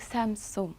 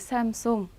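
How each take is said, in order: First: The second syllable is said as seong. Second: The second syllable is said as song. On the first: The speaker calls it wrong. "삼성이라고 하지도 않고" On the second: The speaker calls it right. "삼송이라고 합니다"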